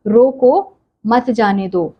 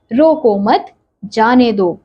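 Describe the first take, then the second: First: Slow रोको, a break, then मत जाने दो as one phrase; pause after रोको. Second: Slow रोको मत as one phrase, a break, then जाने दो; pause after मत. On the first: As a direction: stop after रोको before saying मत जाने दो. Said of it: "के बाद ठहरना है". (रोको के बाद रुककर मत जाने दो) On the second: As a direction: hold the stop until after मत, then say जाने दो. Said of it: "रोको मत", रुकने के लिए मत कहो". (रोको मत के बाद रुककर जाने दो) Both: Shown as a demonstration.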